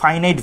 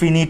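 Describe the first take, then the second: First: The word starts with a long 'fai' sound. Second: The word starts with a short 'fi' sound. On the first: "একটাকে আমরা বলি ফাইনাইট verb" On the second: "অনেক জায়গায় ফিনিট বলে"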